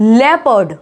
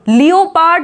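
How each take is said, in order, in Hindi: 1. पहला अक्षर 'leh' जैसा सुनाई देता है। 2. पहला अक्षर 'lee-oh' जैसा सुनाई देता है। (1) "नहीं, लेपर्ड" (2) "लियोपार्ड नहीं बोलते हैं"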